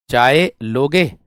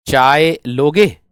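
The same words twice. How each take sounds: The two takes are said the same way.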